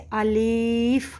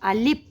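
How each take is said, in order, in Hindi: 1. दूसरा स्वर लंबा खींचा गया है। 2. आख़िरी आवाज़ p है, f नहीं। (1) "लाम के ज़ेर को इतना खींच देते हैं कि उसमें वो या ज़ाहिर हो जाता है" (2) "फ़ा की जगह हम क्या कहते हैं? पा कह देते हैं"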